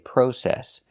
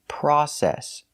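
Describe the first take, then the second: First: It has a British pronunciation of the first vowel. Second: It has an American 'ah' first vowel. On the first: "In England, they say process" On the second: "in America, we say process. We're using the short O, which makes the sound ah"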